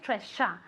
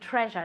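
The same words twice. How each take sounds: First: The middle consonant is a strong sh sound. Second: The middle consonant is a softer buzzing sound. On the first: The speaker calls it wrong. "no es tan fuerte como una S H, no es treasure" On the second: The speaker calls it right. "es un poquito, poquito más suave"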